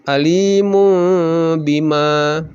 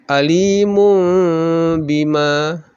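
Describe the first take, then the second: The two takes are said the same way.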